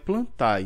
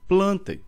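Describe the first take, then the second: First: The ending is two separate vowels, a then e. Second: The ending is one blended e-like vowel. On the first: The speaker calls it wrong. "Não é plantae, não existe reino plantae" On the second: The speaker calls it right. "lê um A embolado com E, mas quase sem som do A"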